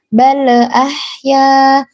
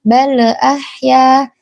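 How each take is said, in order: Both takes have the same delivery.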